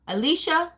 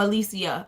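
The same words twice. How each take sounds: First: Alicia in three syllables, with a sh; Alicia said a-LEE-sha. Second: Alicia in four syllables, with an s; Alicia said a-LEE-see-ya. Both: Shown as a demonstration. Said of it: "I think it's Alicia".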